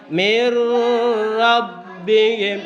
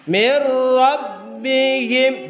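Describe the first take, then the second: First: The sound before 'rabbihim' is held long. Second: The sound before 'rabbihim' is held short. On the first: The speaker calls it wrong. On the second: The speaker calls it right. "dibaca singkat ya, pendek"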